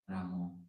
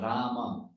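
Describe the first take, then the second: First: The final vowel is a rounded 'oh' sound. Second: The final vowel is an open 'ah' sound. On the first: The speaker calls it wrong. "it's not Ramo also" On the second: The speaker calls it right. "Rama, it's not Ramo also"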